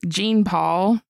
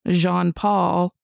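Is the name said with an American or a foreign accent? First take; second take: American; foreign. First: The name is said with an American pronunciation. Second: The name is said with a foreign pronunciation.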